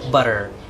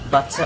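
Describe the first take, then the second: First: The middle T sounds like a soft D. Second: The middle T is a clear aspirated T. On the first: "murag D na butter" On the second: "Ang British T, ta"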